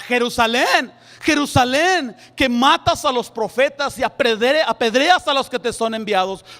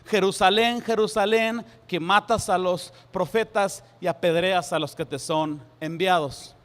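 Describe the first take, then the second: First: It is exclaimed with frustration. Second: It is read calmly, without exclamation.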